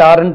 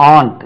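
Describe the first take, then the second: First: It is said in two syllables, with an r. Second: It is said in one syllable, like aunt. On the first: The speaker calls it wrong. "இது தவறான உச்சரிப்பு" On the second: The speaker calls it right. "இது ரெண்டுமே ஒரே உச்சரிப்பு"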